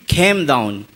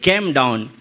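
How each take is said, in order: First: Lightly imitated Australian accent, low-pitched; Australian-style "Came", with a puff on the k and a gliding vowel. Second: Indian accent. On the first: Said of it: "But he is saying". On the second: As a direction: say "Came down" in an Indian accent, low-pitched. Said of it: "we Indians say in our accent". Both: Shown as a demonstration.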